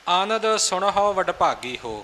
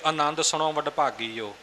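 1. ਦੂਜਾ ਸ਼ਬਦ h ਦੀ ਆਵਾਜ਼ ਨਾਲ ਬੋਲਿਆ ਜਾਂਦਾ ਹੈ। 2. ਦੂਜਾ ਸ਼ਬਦ ਬਿਨਾਂ h ਦੀ ਆਵਾਜ਼ ਦੇ ਬੋਲਿਆ ਜਾਂਦਾ ਹੈ। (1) "ਸੁਣਹੋ ਇਹ ਵੀ ਹਾਹੇ ਔਂਕੜ ਹੈ ... ਇਹ ਸ਼ੁੱਧ ਉਚਾਰਨ ਹੈ" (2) "ਇਹ ਗਲਤੀ ਆਮ ਹੀ ਸੁਣਨ ਨੂੰ ਮਿਲਦੀ ਹੈ"

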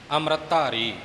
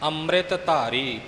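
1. ਪਹਿਲੇ ਸ਼ਬਦ ਵਿੱਚ t ਧੁਨੀ ਲੁਪਤ ਹੈ। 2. ਪਹਿਲੇ ਸ਼ਬਦ ਵਿੱਚ t ਧੁਨੀ ਸਾਫ਼ ਹੈ। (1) "ਇੱਥੇ ਆਮ ਪਾਠੀ ਤੱਤਾ ਲੁਪਤ ਕਰ ਜਾਂਦੇ ਨੇ, ਅੰਮ੍ਰਿਤ ਧਾਰੀ ਇਉਂ ਨਹੀਂ ਬੋਲਣਾ" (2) "ਪੂਰਾ ਉਚਾਰਨ ਸਪਸ਼ਟ ਕਰਨਾ ਹੈ ਜੀ"

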